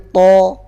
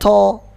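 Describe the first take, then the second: First: No breath escapes with the t sound. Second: Breath escapes audibly with the t sound. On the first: The speaker calls it right. "to nggak boleh ada angin yang keluar" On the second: The speaker calls it wrong. "bukan to"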